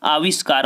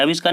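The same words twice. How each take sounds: First: आविष्कार with a long "aa" at the start, "aavishkar"; long first vowel. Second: आविष्कार with a short "a" at the start, "avishkar"; short first vowel. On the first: Teacher giving students the correct form, आविष्कार said with long first "aa". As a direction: open आविष्कार on a full, long "aa". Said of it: "शुद्ध आपका ये लिखा है आविष्कार". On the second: Teacher warning students off the wrong form, आविष्कार said with short first "a". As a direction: open आविष्कार on a short, quick "uh" instead of long "aa". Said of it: "आप ये मत समझना कि आविष्कार होता है".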